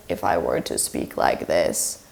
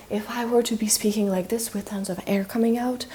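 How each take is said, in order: First: Very low, softer vocal creak; creaky voice. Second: Soft voice with tons of air; breathy voice. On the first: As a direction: drop right down into a creak. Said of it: "that is creaky voice". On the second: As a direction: let lots of air leak out as you speak. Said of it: "that would be breathy voice". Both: Shown as a demonstration.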